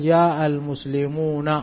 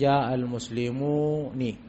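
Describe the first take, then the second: First: The final n is followed by an a vowel. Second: The final n is followed by an i vowel. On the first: This is the standard usage. "ونون الجمع دائما تكون مفتوحة" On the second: This is a rare dialect usage. "وقل من العرب من نطق بكسرها ... في لغة قليلة يقولون"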